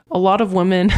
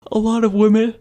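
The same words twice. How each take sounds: First: Said in the usual way. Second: Words stretched through a yawn. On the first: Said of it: "give me a second". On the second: Real, not acted. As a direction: speak mid-yawn, mouth wide open. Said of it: "Sorry about that yawn".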